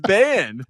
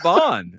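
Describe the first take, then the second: First: The vowel sounds like the a in 'can'. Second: The vowel sounds like the o in 'bond'. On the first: The speaker calls it right. "it's ban" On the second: The speaker calls it wrong. "It's not bond"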